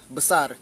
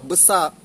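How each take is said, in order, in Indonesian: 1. R di akhir dilafalkan dengan jelas. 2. R di akhir dihilangkan dan tidak terdengar. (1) "bunyi R kita jelas" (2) "R dekat belakang kita matikan, tak ada kita bunyikan"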